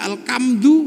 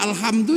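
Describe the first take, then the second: First: The consonant after 'al' is a k sound. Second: The consonant after 'al' is an h sound.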